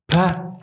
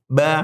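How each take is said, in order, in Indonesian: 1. Ada hembusan napas setelah suku kata ini. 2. Tidak ada hembusan napas setelah suku kata ini. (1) "berarti kan salah" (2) "kalau ba kan gak gerak"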